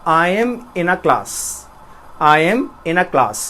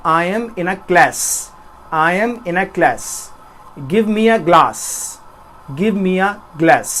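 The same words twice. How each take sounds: First: Slow British accent, a as in father. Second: Slow American accent, flat a as in cat. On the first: Teacher demonstrating the British accent to students, slow and careful. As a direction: say it the British way, slowly. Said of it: "अगर मैं British में बोलूँगा तो बोलूँगा". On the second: Teacher demonstrating the American accent to students, slow and careful. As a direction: say class and glass the American way. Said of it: "अगर इसी बात को मैं अमेरिकन एक्सेंट में बोलना चाहूँगा". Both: Shown as a demonstration.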